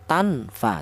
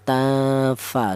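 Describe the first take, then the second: First: The n is pronounced fully and clearly before f. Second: The n is hidden and nasalized before f. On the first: The speaker calls it wrong. "dibaca idhar atau dibaca jelas, tidak boleh" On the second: The speaker calls it right. "cara bacanya disamarkan ya"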